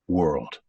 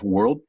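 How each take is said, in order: First: The final sound is held and let fade. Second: The final sound is cut off abruptly. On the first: The words flow naturally with warmth. The speaker calls it right. "We're going to let that breath finish" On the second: It sounds artificial and chopped. The speaker calls it wrong. "I don't want you to cut it off"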